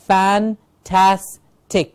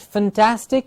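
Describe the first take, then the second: First: The first syllable sounds like fan. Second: The first syllable sounds like fin. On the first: The speaker calls it right. "with the clear ah sound" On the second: The speaker calls it wrong. "It's not fantastic, it's not fin"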